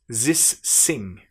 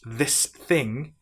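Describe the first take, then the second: First: The th sounds become z and s sounds. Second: The words are said with th sounds.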